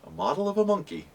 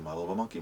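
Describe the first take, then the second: First: It is said at a normal pace. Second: It is said very fast.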